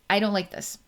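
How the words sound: It sounds clean and matter-of-fact.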